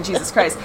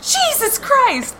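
First: Said in the usual way. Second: Very high, drawn-out startled cry; slow, high-pitched mock scream; retold scream. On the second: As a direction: re-enact a shriek of shock, volume held back. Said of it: "I screamed and said".

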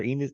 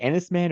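First: Enos opening with a long "EE" as in "see"; long-E pronunciation. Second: Ennisman opening with a short "EN" as in "pen"; short-E pronunciation. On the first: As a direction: say Enos as "EE-niss". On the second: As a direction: say Ennisman starting "EN-iss", short E. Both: Shown as a demonstration. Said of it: "is it Ennisman or Enos".

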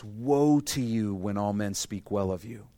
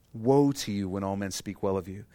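First: "Woe" drawn out, slow and weighty, rising at the end; slow emphatic reading. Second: Said in the usual way. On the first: Shown as a demonstration. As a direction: underline every word, slowly. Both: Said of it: "I want you to underline this".

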